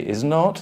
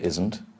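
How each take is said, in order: First: The two words are said fully and separately. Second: The two words are contracted into one word. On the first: "you can say is not" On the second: "or you can say isn't"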